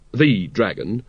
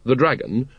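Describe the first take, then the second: First: "the" stressed and drawn out as "thee"; emphatic "the" before dragon. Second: Said in the usual way. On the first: A narrator's reading. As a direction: lean on "the", as in the one and only. Repeated with emphasis on the article.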